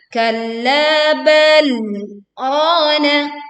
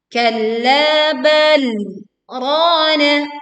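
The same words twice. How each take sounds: The two takes are said the same way.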